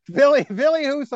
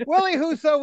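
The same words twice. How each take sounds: First: "Billy" said with a V, as Villy, pitched high. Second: "Willie" said with a plain W, pitched high. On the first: Host insisting on his name for Husso, "Billy" pronounced Villy. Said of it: "I call him Billy". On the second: Host naming the unwanted twin, "Willie" pronounced with a W. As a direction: say "Willie Husso" with W as in will, not V. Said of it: "we don't want". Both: Shown as a demonstration.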